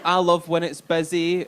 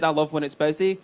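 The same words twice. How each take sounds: First: Slow, mock-eager boast; lightly sucking up; fake keen applicant. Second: Said in the usual way. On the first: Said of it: "So everyone's like". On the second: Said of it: "see when somebody says".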